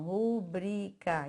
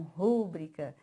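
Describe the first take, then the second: First: Rubrica spaced out, stressed on the middle syllable BRI. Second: Rúbrica with the first syllable RU stressed. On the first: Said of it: "o bri que é tônico". (rubrica com a tônica no BRI) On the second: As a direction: punch RU at the start of rúbrica. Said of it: "e não rúbrica". (rúbrica com a tônica no RU) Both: Shown as a demonstration.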